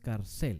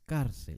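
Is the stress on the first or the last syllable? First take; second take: last; first. First: The stress is on the last syllable. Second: The stress is on the first syllable. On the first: The speaker calls it wrong. "No es cárcel" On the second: The speaker calls it right. "el énfasis está en la penúltima"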